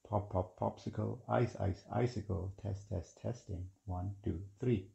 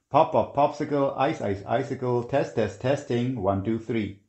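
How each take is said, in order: First: The words are spoken at soft volume. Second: The words are spoken at normal volume. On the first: "And one more time softer" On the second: "this is the microphone test in quiet conditions"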